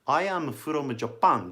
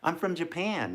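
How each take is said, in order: First: "I am" is said as two full words. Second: "I am" is contracted to "I'm". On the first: The speaker calls it wrong. "じゃなくて" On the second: The speaker calls it right. "一番自然な言い方かな?"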